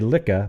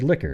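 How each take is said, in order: First: The word ends without an r sound. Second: The word ends with a clear r sound. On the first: "thought you'd say licka, but you didn't" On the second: "You said liquor"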